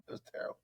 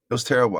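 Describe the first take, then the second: First: Breathy whisper, much softer; hushed whisper of misery. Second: Said in the usual way. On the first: Real, not acted. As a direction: whisper it like a grim confession. Repeated with whisper.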